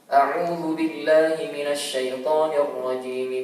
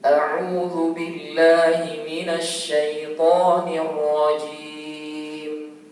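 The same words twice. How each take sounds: First: It is recited quickly. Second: It is recited at a moderately quicker pace. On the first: "dengan cepat" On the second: "Yang tadwir agak cepat sedikit"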